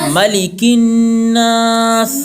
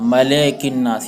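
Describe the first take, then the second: First: The second vowel is a short i sound. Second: The second vowel is an e sound. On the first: The speaker calls it right. "मली, बोलिए" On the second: The speaker calls it wrong. "ये गलत है"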